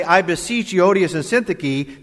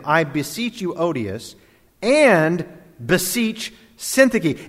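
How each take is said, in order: First: Said in the usual way. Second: Slow, each name set apart; names separated. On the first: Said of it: "That's what you would normally say". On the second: Shown as a demonstration. Preacher reading Paul's plea to two women, each named apart. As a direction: beseech each woman by name, one at a time. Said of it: "He separates them".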